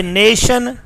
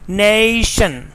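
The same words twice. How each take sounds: First: "nation" as "neh-shun"; one steady "eh" in nation; Pakistani pronunciation. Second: "nation" drawn out as "neh-ee-shun"; British pronunciation. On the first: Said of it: "In Pakistan English". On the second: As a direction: glide the first vowel of nation. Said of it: "The correct pronunciation is". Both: Shown as a demonstration.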